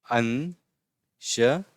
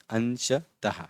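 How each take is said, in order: First: "अंशतः" stretched out with long pauses between syllables; very slow syllables. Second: "अंशतः" slowly but more joined, ending in released h; measured syllables. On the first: Teacher repeating "अंशतः" for pupils, very slow syllables. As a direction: isolate each syllable of "अंशतः". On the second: Teacher putting "अंशतः" back together, measured syllables. Word repeated with shorter gaps. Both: Shown as a demonstration.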